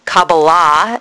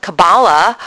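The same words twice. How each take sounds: First: Kabbalah with a full first vowel and long open final AH; alternative pronunciation. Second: Kabbalah with stress on the middle syllable; usual pronunciation. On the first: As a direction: say Kabbalah as kah-bah-LAH. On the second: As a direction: say Kabbalah as kuh-BAH-luh. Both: Shown as a demonstration. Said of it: "as some people pronounce it".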